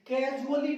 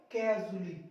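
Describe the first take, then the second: First: कैजुअली with the silent A wrongly voiced before the L; wrong pronunciation. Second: कैजुअली with the A before "ली" dropped; silent A. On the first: Teacher showing students the mistake, कैजुअली with its A sounded. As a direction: say कैजुअली with an extra vowel before "ली". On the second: Teacher giving students the correct reading, कैजुअली with silent A. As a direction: run कैजुअली straight into "ली", no A. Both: Shown as a demonstration. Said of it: "कैजुअली नहीं साथियों".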